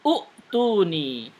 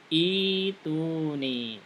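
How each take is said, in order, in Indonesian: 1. Kata ini diawali dengan vokal 'u'. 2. Kata ini diawali dengan vokal 'i'. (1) "Bisa jadi ada yang membacaannya utuni" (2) "Tapi yang benar adalah ituni"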